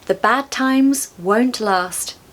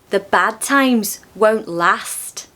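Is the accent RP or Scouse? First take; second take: RP; Scouse. First: It is said in a modern RP accent. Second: It is said in a Scouse accent. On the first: "I'll say them in modern R P first" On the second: "In Scouse"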